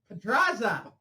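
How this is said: It is said in an even stiffer, exaggerated accent.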